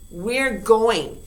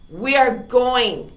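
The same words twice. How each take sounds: First: Said in the usual way. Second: We are, slow and stressed on ARE; slow uncontracted demo; slow full form. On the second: Shown as a demonstration. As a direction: spell out ARE slowly.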